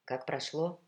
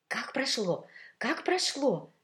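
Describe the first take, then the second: First: Said in the usual way. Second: High, excited clamour; bubbling, raised-voice questioning; eager, overlapping questions. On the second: A narrator's reading. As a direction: pounce with curiosity, like several gossips at once. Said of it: "Перебивая друг друга".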